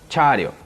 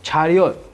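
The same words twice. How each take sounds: First: The final syllable carries no stress. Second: The final syllable carries a light stress. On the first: The speaker calls it wrong. "e não chariot" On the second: The speaker calls it right. "tente dar uma leve entonação na última sílaba; se fala chariot"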